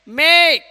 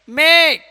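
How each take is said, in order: No difference in how they are said.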